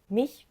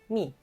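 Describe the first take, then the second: First: The final ch sound is pronounced. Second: The final ch sound is dropped. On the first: This is the standard German form. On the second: This is the Swabian dialect form.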